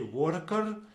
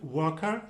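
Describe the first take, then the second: First: The r sounds are strongly rolled. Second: The r sounds are soft and barely heard. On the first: "we would uh, really roll those R's" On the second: "in British English it would sound a little bit softer"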